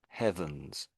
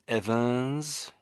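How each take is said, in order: First: The word begins with an audible breathy H. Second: The word begins directly with the vowel, no H. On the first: The speaker calls it right. "I am pronouncing the H at the front" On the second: The speaker calls it wrong. "But I think you were saying Evans"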